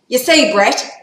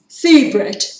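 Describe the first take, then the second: First: It is said in a put-on Yarra accent. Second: It is said in the speaker's normal accent.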